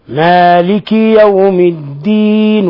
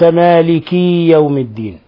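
First: The vowel after the K is kept short. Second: The vowel after the K is stretched long. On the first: The speaker calls it right. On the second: The speaker calls it wrong.

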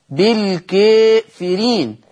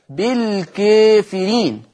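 Both takes have the same delivery.

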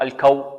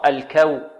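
First: The k and w sound thick and heavy. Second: The k and w sound thin and light. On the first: The speaker calls it wrong. "الكو خطأ" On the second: The speaker calls it right. "كاف مرققة وبعدها واو مرققة"

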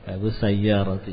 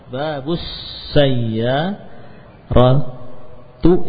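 First: The last word ends with an 'i' vowel. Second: The last word ends with a 'u' vowel. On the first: The speaker calls it right. "Yang betul roti" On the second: The speaker calls it wrong. "itu yang keliru"

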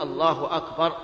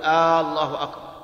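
First: The first vowel of the first word is short. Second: The first vowel of the first word is long. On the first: The speaker calls it right. "لا بد أن يقول الله أكبر" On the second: The speaker calls it wrong. "ولا يجوز أن يمد الهمزة"

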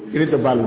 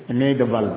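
No difference in how they are said.

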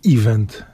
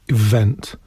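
First: The stress is on the first syllable. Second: The stress is on the second syllable. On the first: The speaker calls it wrong. "Nie mówi się event" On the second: The speaker calls it right. "akcent na drugą sylabę"

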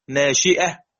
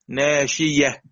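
First: The middle consonant is a glottal stop. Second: The middle consonant is a y sound.

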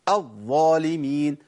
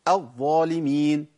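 No difference in how they are said.

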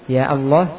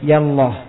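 First: The vowel of 'ya' is cut short. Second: The same.

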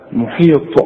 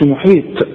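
First: The final t sound is emphatic. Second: The final t sound is plain. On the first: The speaker calls it right. "الطاء طلعها طاء" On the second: The speaker calls it wrong. "ما تطلعهاش تاء، تقولش محيط"

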